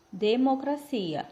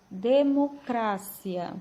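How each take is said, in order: First: Democracia drawn out, weight on CI; stress on CIA. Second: Democracia very slow, weight on CRA; drawn-out democracia with CRA as the strong syllable; stress on CRA. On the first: Teacher modelling the Portuguese word, democracia stressed on CI. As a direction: slowly say democracia with CI as the strong syllable. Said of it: "sílaba tônica cia". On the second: Teacher modelling the correct Spanish pronunciation, democracia stressed on CRA. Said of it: "sílaba tônica cra". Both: Shown as a demonstration.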